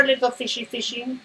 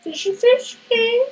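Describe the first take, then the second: First: Sweet high call to the fish; high coaxing call. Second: Squeaky, slow sing-song call; very high sing-song. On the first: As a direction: coax it in like calling a pet. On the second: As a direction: stretch it high and slow to lure the fish. Coaxing the fish, drawn out. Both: Acted.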